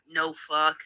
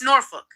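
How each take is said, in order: First: Norfolk is said in a non-British way. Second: Norfolk is said the British way. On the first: The speaker calls it wrong. "It's not no fuck" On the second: The speaker calls it right. "Go over to the British, hear how they fucking pronounce that"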